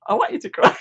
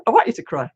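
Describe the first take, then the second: First: Playful teasing whisper; breathy whispered tease. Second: Said in the usual way. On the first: Pretend. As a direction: whisper it like a secret dare. Teasing her to cry.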